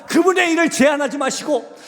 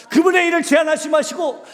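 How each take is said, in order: The two takes are said the same way.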